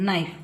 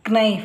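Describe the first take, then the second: First: The word starts directly with the n. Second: A k sound is pronounced before the n. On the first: The speaker calls it right. "ಇಲ್ಲಿ ಕೆ silent" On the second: The speaker calls it wrong. "ಕ್ನೈಫ್ ಅಲ್ಲ"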